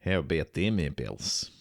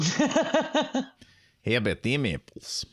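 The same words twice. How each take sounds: First: Put-on Boston accent. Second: Put-on Boston accent, pitch jumping up high on "How"; a second go at the Good Will Hunting line in a Boston accent. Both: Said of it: "That was my Boston accent".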